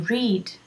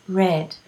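First: The vowel is long, sounding like reed. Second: The vowel is short, sounding like red. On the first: The action happens in the present. "the spelling of the present. I read" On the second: The action happened in the past. "in the past simple is read, like the color"

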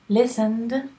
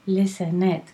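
First: The word ends in a soft d sound. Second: The word ends in an extra id syllable. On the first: The speaker calls it right. "listened, d, like Madrid, d" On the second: The speaker calls it wrong. "What is not okay is listen it. Okay, that's terrible"

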